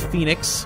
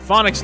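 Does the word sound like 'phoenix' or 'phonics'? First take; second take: phoenix; phonics. First: The word sounds like 'phoenix'. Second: The word sounds like 'phonics'. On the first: The speaker calls it right. "I now know it's Phoenix" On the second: The speaker calls it wrong. "That's how I used to pronounce it"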